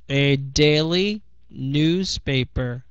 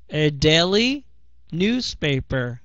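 No difference in how they are said.

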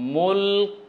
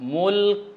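The two takes are said the same way.

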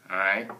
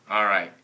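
No difference in how they are said.

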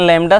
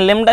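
First: The first vowel sounds like 'a' in cat. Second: The first vowel sounds like 'e' in bed. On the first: This is the correct form. "लेकिन लैम्डा शुद्ध है" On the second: This is how people usually read it. "पढ़ते हैं लेम्डा"

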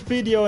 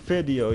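First: The word is said with a Dutch accent. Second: The word is said with an English accent. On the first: "I just say only video in the Dutch way" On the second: "I like it more than saying video"

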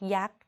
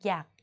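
First: The syllable is said with a high tone. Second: The syllable is said with a low tone. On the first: "ตรี" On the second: "เอก"

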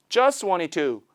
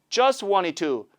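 No difference in how they are said.

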